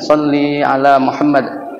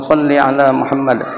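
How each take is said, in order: First: The vowel in 'salli' is drawn out long. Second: The vowel in 'salli' is kept short. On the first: The speaker calls it wrong. "Umumnya sallinya dipanjangkan" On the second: The speaker calls it right. "Yang benar pendek"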